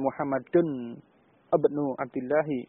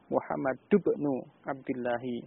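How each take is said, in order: First: Muhammad ends in 'un' before ibnu. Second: Muhammad runs straight into ibnu without 'un'. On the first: The speaker calls it wrong. "Jadi bukan Muhammadun ibnu Abdillahi, tidak" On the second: The speaker calls it right. "tetapi Muhammad ibnu Abdillahi"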